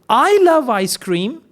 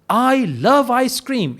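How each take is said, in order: First: It is said like a question. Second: It is said like a plain positive statement. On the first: The speaker is asking. "it's a question" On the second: The speaker sincerely states it. "It is positive sentence"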